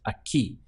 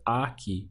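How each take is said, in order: First: The stress is on the last syllable. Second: The stress is on the first syllable. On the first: The speaker calls it right. "with the hit on the ending" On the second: The speaker calls it wrong. "don't pronounce it as aquí"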